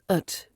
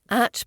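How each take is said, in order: First: The word is said with a weak reduced vowel. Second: The word is said with a full vowel. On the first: "At becomes ut" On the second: "At becomes ut"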